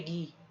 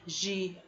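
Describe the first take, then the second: First: The G sounds hard, like in gato. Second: The G sounds soft, like a J. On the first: The speaker calls it wrong. "A gente não pode dizer" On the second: The speaker calls it right. "temos o som de J"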